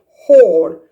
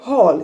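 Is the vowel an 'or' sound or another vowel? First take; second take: or sound; another vowel. First: The vowel is the rounded 'or' sound. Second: The vowel is not the rounded 'or' sound. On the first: The speaker calls it right. "say hall" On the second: The speaker calls it wrong. "Don't say hall"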